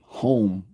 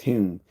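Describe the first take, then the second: First: The name rhymes with 'dome'. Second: The name rhymes with 'fume'. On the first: The speaker calls it wrong. "kept calling him home" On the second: The speaker calls it right. "when it's pronounced Hume"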